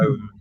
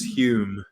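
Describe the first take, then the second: First: The name is said like 'home'. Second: The name is said like 'hyoom'. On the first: "even though it's written" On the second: "it's often Sir Alec Douglas Hume"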